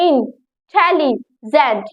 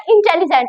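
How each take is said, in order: First: "इंटेलिजेंट" broken slowly into three beats, in-telli-gent; syllable by syllable. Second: Said in the usual way. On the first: Shown as a demonstration. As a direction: sound out "इंटेलिजेंट" slowly with pauses between syllables. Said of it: "इसमें तीन syllable हुए". ("इंटेलिजेंट" तीन हिस्सों में तोड़कर, धीरे-धीरे) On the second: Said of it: "तो मैं कैसे बोलूंगी".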